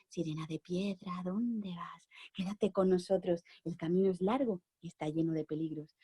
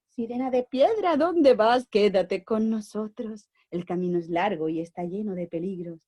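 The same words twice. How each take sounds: First: Whispering statues. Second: Lightly voiced pigeons. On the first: Acted. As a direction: hush it like stone statues murmuring. Statues asking the mermaid. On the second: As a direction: play the pigeons lightly, calling out. Pigeons answer the mermaid.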